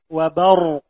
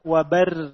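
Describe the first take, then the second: First: The r sound is heavy and thick. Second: The r sound is light and thin. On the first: The speaker calls it right. "Maka dibaca tebal" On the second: The speaker calls it wrong. "Bukan wabar, enggak"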